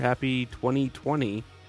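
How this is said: The greeting is said in a sad tone. The speaker calls it wrong.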